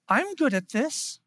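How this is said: It is said in a light, cheerful, playful tone. "It wasn't like Elf's tone"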